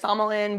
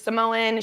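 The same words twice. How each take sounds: First: It is said with a native-style pronunciation. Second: It is said in a plain English way.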